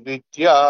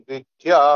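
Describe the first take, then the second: The two takes are said the same way.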